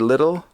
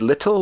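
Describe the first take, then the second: First: The middle consonant is a soft D sound. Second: The middle consonant is a crisp T sound. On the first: "we say little. We, we turn it into D's" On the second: "we don't say little"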